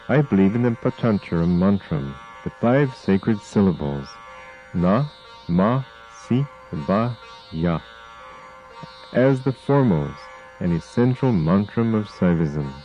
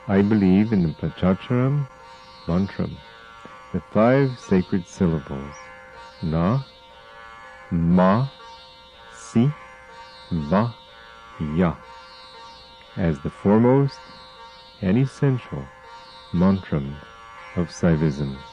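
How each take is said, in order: First: It is said at normal speed. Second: It is said slowly.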